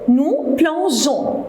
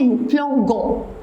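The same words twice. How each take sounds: First: The g is soft, like the s in measure. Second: The g is hard, like the g in go. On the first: The speaker calls it right. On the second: The speaker calls it wrong.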